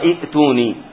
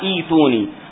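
First: A glottal stop follows the short first vowel. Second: The first vowel is a long i, no glottal stop. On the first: The speaker calls it wrong. "ما تقرأها إئتوني" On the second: The speaker calls it right. "تقرأها إيتوني"

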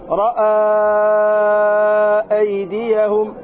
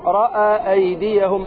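First: The long vowel is held for several beats. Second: The long vowel is held for one beat. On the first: "أربع أو خمس حركات" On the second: "من طريق الروضة تقول رأى أيديهم حركة"

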